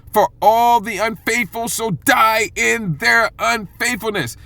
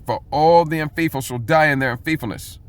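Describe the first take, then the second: First: Slow, high and weighty, leaning on all; solemn, slow warning; emphatic scripture. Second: Said in the usual way. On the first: Shown as a demonstration. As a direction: drag out "For all the unfaithful shall die" like a verdict. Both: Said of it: "The emphasis here is on".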